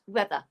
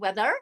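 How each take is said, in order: First: The word ends without any R sound. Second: The word ends with an audible R sound. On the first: The speaker calls it right. "we don't say the R sound at the end" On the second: The speaker calls it wrong. "It's not weather"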